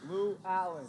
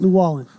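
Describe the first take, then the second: First: The name is said as two separate parts. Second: The name is said as one running word. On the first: The speaker calls it right. "like a hyphen in there" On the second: The speaker calls it wrong. "I like the way you pronounced it"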